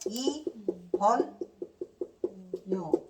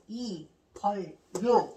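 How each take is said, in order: First: The second syllable ends in an n sound. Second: The second syllable ends in an l sound. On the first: The speaker calls it right. "이벌료가 아니라 뭐예요?" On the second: The speaker calls it wrong. "이거 그지같이 이렇게 발음하면 안 되겠지"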